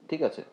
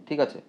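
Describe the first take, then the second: The two takes are said the same way.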